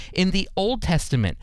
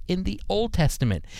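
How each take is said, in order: Both takes have the same delivery.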